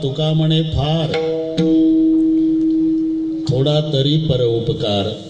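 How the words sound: There is a pause right after फार.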